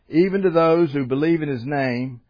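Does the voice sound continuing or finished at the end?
continuing. The voice stays open, leading on to more. The sentence goes on into the next verse. The speaker calls it right. "It ends with a comma, which means the sentence continues"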